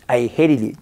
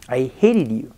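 The two takes are said the same way.

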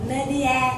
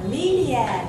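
First: Stress and vowels do not sound English-like. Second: Stress and vowels sound English-like. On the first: The speaker calls it wrong. "nếu như ngày xưa mình sẽ đọc là như vậy" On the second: The speaker calls it right. "bây giờ sau cái khóa này mình sẽ đọc là media"

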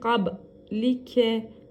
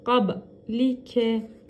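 Both takes have the same delivery.

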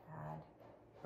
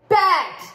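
First: It is said quietly with low energy. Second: It is said loudly with high energy.

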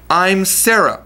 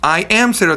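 First: I am is contracted into one syllable. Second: I am is said as two full words. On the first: The speaker calls it right. "もっと自然にI'm と言いましたね。これ英語でcontraction と言います。" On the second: The speaker calls it wrong. "I am Sarah と言ってないね。"

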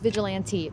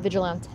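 First: It is said the English way, ending 'lan-tee'. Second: It is said the French way, with a clipped ending. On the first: The speaker calls it right. "It's pronounced vigilante" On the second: The speaker calls it wrong. "not vigilante. It's not French"

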